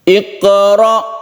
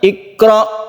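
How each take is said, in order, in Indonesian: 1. Bunyi q dilepas dengan memantul. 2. Bunyi q berhenti datar tanpa memantul. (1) "dikolkolahkan dulu, dipantulkan dulu" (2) "qafnya ini tidak dikolkolahkan"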